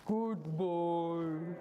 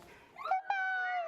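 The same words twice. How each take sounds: First: It is said in a low voice. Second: It is said in a high voice.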